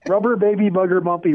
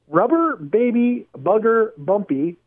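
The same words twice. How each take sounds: First: It is said fast. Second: It is said slowly.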